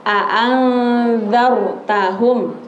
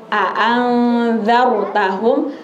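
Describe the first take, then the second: Both takes have the same delivery.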